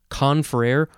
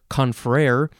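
First: The stress is on the first syllable. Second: The stress is on the second syllable. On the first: "you can emphasize either syllable" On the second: "you can emphasize either syllable"

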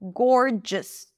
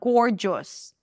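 First: The final vowel is a short reduced schwa. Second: The final vowel is a full vowel. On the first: The speaker calls it right. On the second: The speaker calls it wrong.

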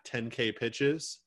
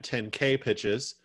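First: The stress is on ten. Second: The stress is on K.

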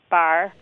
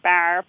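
First: The vowel is moderately pushed to the front. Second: The vowel is pushed far to the front. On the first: "it's somewhat fronted" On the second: "It's not radically fronted. It's not like bar"

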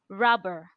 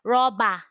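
First: The final vowel is closed and reduced. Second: The final vowel is open and full. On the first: The speaker calls it right. "but no, you close it" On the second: The speaker calls it wrong. "in Nigeria, you hear someone say rubber. But it is not. Yeah, you open your mouth"

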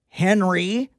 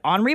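First: The name is pronounced the English way. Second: The name is pronounced the French way. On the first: The speaker calls it wrong. "I didn't say Henry" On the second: The speaker calls it right. "that's how you pronounce it in France"

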